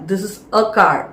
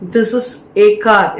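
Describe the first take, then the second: First: The article is pronounced as 'uh'. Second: The article is pronounced as 'ay'. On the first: The speaker calls it right. "அ அப்படின்னு pronounce பண்ணுங்க" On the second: The speaker calls it wrong. "ஏ அப்படின்னு pronounce பண்ணாதீங்க"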